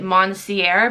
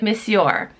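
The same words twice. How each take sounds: First: It is sounded out letter by letter as spelled. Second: It is not sounded out the way it is spelled. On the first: The speaker calls it wrong. "I was like just sounding it out. Like I was reading it how it looks like it should be said" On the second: The speaker calls it right. "it's actually Monsieur"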